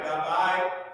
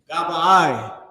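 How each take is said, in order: First: The word ends on a plain vowel, no breath. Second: The word ends with an audible breathy h. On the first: The speaker calls it wrong. "Instead of uh, Gabai or Gabai" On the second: The speaker calls it right. "It is a breath at the end to pronounce the ha"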